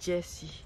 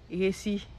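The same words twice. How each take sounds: First: The name is said with an English pronunciation. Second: The name is said with a Spanish pronunciation. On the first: "Mais en anglais, c'est Jessie" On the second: "En espagnol, ils disent Jessie. Ils disent même pas le J"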